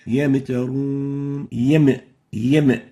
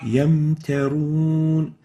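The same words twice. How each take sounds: First: Yamtarun with a bouncing echo on the meem, yam yam; wrong qalqala. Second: Yamtarun slow, meem held still without echo; smooth Yamtarun, no jolt on the meem; correct Yamtarun. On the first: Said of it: "This is wrong". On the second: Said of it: "The right way of pronouncing it is like this". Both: Shown as a demonstration.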